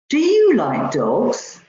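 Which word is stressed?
you. The stress falls on the word you. The question is about this person rather than somebody else. "Rather than somebody else"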